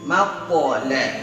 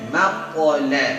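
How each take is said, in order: The two takes are said the same way.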